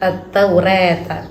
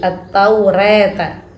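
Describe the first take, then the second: No difference in how they are said.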